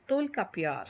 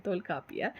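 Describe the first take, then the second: First: Said in the usual way. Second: Tolkappiyar spelled out slowly, syllable by syllable; slow down and say Tolkappiyar clearly for the class; careful slow pronunciation. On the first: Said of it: "sorry, Tolkappiyar". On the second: Shown as a demonstration. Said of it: "okay, Tolkappiyar".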